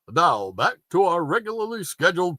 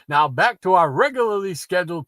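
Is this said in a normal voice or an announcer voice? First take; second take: announcer; normal. First: It is said in a put-on announcer voice. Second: It is said in an ordinary speaking voice. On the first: The speaker calls it right. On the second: The speaker calls it wrong.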